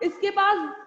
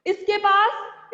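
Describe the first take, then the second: First: पास said loud with a falling tune; firm falling पास; falling stress on पास. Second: पास drawn out slow and loud with a rising tune; slow, loud emphasis on पास; stress on पास. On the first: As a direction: drop your voice onto पास. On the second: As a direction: stretch पास and lift it at the end. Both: Shown as a demonstration. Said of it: "जैसे मैंने normal बोला".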